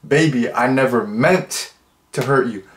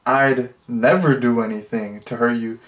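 First: Tender apology. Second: Said in the usual way. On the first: Shown as a demonstration. Vlogger rewrites the line as a tender apology. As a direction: say it like you mean sorry. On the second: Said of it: "Instead of saying".

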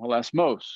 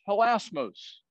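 First: "Hilasmos" with the stress moved onto the final syllable, hila-SMOS; accent on last syllable. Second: Said in the usual way. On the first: Shown as a demonstration. Bible teacher trying the Greek stress for his class, "Hilasmos" stressed on the final syllable. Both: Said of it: "they put the accent on the last syllable".

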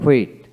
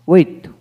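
First: হুইট begun with h before the w; sounded H. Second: First হুইট begun with a plain w. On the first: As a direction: say হুইট as "hwet". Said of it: "ব্রিটিশে হ উচ্চারিত হয়". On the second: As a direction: say হুইট as "wet", no h. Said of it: "আমেরিকানে অ উচ্চারিত". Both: Shown as a demonstration.

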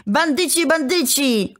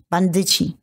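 First: Bandyci repeated higher, rising into a mild cry; rising outburst. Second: Low, choked-out word, understated. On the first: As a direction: let Bandyci break out higher each time. (wyższy, narastający okrzyk) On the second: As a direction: force Bandyci out low as if choking. (z trudem wykrztuszone, nisko) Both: A narrator's reading. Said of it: "wykrztusił wreszcie".

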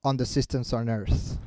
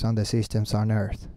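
First: Slow, soft echo of a speaker; imitating the video speaker. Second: Low, slow droning read; lifeless wrong way. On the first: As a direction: repeat it carefully, softly and slowly. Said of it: "tienes que imitar lo que él hace". (imitando al orador, lento y bajo) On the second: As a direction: read it tonelessly, without imitating anyone. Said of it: "No, así no". (lectura grave y monótona, sin emoción) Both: Shown as a demonstration.

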